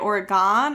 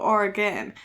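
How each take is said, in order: First: The last syllable is said like 'on'. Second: The last syllable is said like 'en'. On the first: "big O N for Oregon" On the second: "E N, even though I understand that's not how you spell it, for Oregon"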